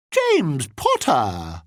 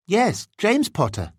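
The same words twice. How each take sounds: First: Put-on slow, drawn-out, ridiculous English accent; mock English accent. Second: Said in the usual way. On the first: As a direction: ham up a bad English accent, higher and stretched out. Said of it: "fairly ridiculous attempt at an English accent".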